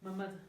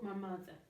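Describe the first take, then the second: First: 'My' is reduced to a short 'ma' sound. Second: 'My' is said with a full 'eye' vowel.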